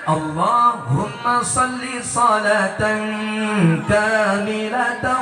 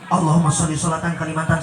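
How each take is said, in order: First: It is recited slowly with careful articulation. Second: It is recited fast with slurred articulation. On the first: The speaker calls it right. "Jadi ancak macana" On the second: The speaker calls it wrong. "hayang loba hitunganana jadi gancang"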